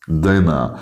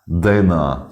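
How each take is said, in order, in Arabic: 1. يُحذف صوت الراء الأخير. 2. يُحذف صوت الراء الأخير.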